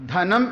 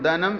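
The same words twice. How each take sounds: First: The first consonant is forceful and aspirated. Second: The first consonant is soft and unaspirated. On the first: The speaker calls it right. "ഊന്നൽ കൊടുത്ത് പറയണം" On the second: The speaker calls it wrong. "അത് തെറ്റാണ്"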